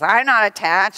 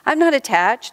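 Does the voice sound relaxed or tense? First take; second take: tense; relaxed. First: The voice sounds tense and forceful. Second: The voice sounds relaxed and plain. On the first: "Except they'll usually say it like this. ... in a voice that is so full of tension" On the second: "People often say that"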